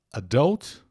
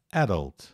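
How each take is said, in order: First: "adult" said a-DULT, rising on the end; "adult" with a weak first vowel and strong DULT; second-syllable stress. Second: "adult" said AD-ult, falling away; "adult" with a strong AD and weak ending; first-syllable stress. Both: Shown as a demonstration. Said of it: "Duas pronúncias possíveis pra palavra".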